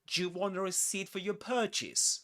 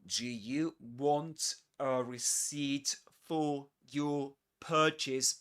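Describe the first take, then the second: First: 'Do you' blends into one short syllable. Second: 'Do you' is said as two full words.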